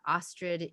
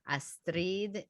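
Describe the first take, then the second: First: The name is said with an American English pronunciation. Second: The name is said with a Colombian Spanish pronunciation. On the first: "in the United States" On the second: "in Colombia"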